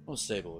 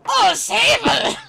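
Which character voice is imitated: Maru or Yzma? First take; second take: Maru; Yzma. First: It is said in a put-on Maru-like voice. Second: It is said in a put-on Yzma-like voice. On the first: The speaker calls it right. "makes me think of Maru" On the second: The speaker calls it wrong. "don't say Yzma"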